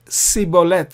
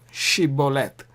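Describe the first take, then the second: First: The word begins with an s sound. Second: The word begins with an sh sound. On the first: The speaker calls it wrong. "pronounced it wrongly" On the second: The speaker calls it right. "Shiboleth is correct"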